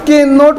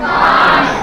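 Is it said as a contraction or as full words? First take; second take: full words; contraction. First: It is said as two full words. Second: It is said as one contracted syllable. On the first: "उस कैन नॉट को" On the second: "short form में कांट बोलते हैं"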